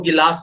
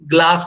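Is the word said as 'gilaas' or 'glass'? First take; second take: gilaas; glass. First: A vowel is inserted between 'g' and 'l'. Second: It begins with the cluster 'gl', no vowel between. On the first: This is how village dialect speakers say it. "गिलास बोलते हैं" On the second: This is the standard form of the word. "ग्लास को"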